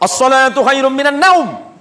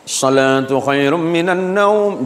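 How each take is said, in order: First: It is said in a loud, raised voice. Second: It is said in a soft, gentle tone.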